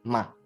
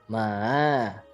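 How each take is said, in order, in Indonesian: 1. Nadanya pendek dan ringan, tanpa nada tertentu. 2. Nadanya turun rendah lalu naik lagi. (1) "itu nggak pakai nada ya" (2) "low and rise, jadi turun lalu naik"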